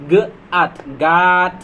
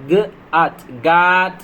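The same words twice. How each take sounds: The two takes are said the same way.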